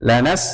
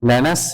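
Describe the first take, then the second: No difference in how they are said.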